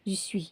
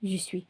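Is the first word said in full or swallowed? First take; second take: swallowed; swallowed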